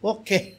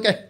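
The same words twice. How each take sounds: First: It is said in a low, sorrowful way. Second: It is said in a lively, energetic way. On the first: The person is feeling grief. "துக்கத்தில் இருக்காருன்னு அர்த்தம்" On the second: The person is feeling strong and vigorous. "இவர் தெம்பாக இருக்காருன்னு அர்த்தம்"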